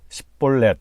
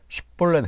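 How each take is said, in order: First: The word begins with an 's' sound. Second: The word begins with an 'sh' sound. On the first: The speaker calls it wrong. "쉽볼렛 하지 못하고 십볼렛 이렇게 말하면" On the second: The speaker calls it right. "쉽볼렛 해봐"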